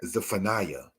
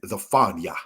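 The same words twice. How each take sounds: First: Said in the usual way. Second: "Zephaniah" said as za-FAHN-yah; Hebrew pronunciation. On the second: Shown as a demonstration. Teacher showing the Hebrew name, "Zephaniah" pronounced za-FAHN-yah. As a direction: give "Zephaniah" the Hebrew ending, fahn-yah rather than fa-NIGH-uh. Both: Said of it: "said as Zephaniah".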